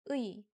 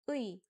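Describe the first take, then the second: The two takes are said the same way.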